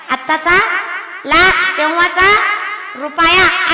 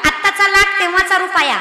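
First: आत्ताचा, लाख तेव्हाचा, रुपया said slowly in separate chunks with pauses, rising on तेव्हाचा; slow spelled-out repeat. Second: Said in the usual way. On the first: Shown as a demonstration. Preacher repeating the saying slowly for the crowd, with pauses. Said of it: "first take". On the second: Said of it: "आत्ताचा लाख तेव्हाचा रुपया (repeated)".

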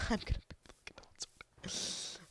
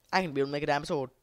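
First: Hushed, giggly whisper; soft voiceless glee; excited whisper. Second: Said in the usual way. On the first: Real, not acted. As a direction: whisper the good news to yourself. Gleeful whispered repeat.

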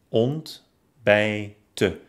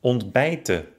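First: Ont-bij-ten, each syllable alone; ontbijten by syllables. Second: Said in the usual way. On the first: Shown as a demonstration. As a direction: clear pauses inside ontbijten. (ontbijten Silbe für Silbe) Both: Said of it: "ob die entstandenen Silben".

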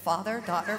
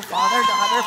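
First: Said in the usual way. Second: "father, daughter" called out high and loud. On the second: Retold or imitated. Walking into the building, calling out to God in a high loud voice. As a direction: sing it out loud as you stride. Chanting as she walks in.

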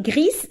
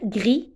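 First: "gris" with an audible hissed s at the end; final S sounded. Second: "gris" said as gree, final s silent. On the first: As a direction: pronounce the last s of "gris", like greess. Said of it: "On ne dit pas gris". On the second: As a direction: end "gris" on the vowel, no s. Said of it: "تكتب فيهم S لكن لا تنطق". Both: Shown as a demonstration.

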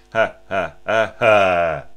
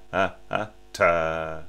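First: "ha" pulses pushed from the belly, the last one loud; breath-driven "ha" accents in one air stream; staccato breath pulses on "ha"; diaphragmatic accent. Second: "ha, ha" then a hard tongued "ta"; contrasting tongued articulation; tongued accent. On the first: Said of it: "into a diaphragmatic accent". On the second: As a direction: end on a crisp tongue stop "ta". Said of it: "it's not the same as". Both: Shown as a demonstration.

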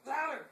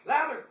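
First: Soft command. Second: Louder. said with more push; louder command. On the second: Urging the dog to bark, a louder command. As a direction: urge the dog on, louder now. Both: Shown as a demonstration.

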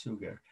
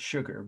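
First: Suger begins with a plain s, not "sh"; name pronunciation. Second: Said in the usual way. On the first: Shown as a demonstration. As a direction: say Suger as "SOO-gur". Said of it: "but pronounced Suger". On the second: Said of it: "almost like the word sugar".

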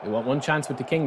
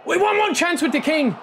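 First: Said in the usual way. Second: Pitched way up and louder, urging; excited high plea. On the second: Real, not acted. Gamer begging his striker for one chance, excited high plea. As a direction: cry it out hoping for one chance.

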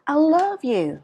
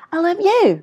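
First: "love" high and long, falling after; stress on LOVE. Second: "you" loud and high, then falling; stress on YOU. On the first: Teacher contrasting intonations for learners, stress on LOVE. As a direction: raise "love" above the rest. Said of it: "cái tông nó cao hơn so với những cái còn lại". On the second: Teacher contrasting intonations for learners, stress on YOU. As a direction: save the height for "you". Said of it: "cái ngữ điệu nó khác nhau hoàn toàn". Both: Shown as a demonstration.

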